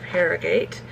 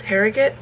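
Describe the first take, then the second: First: Harrogate with a full "gate" ending; Harrogate as spelled. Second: Harrogate ending in a short "git"; Harrogate, reduced ending. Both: Shown as a demonstration. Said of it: "however they would pronounce it".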